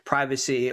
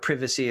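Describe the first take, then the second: First: It is said with an American pronunciation. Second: It is said with a British pronunciation.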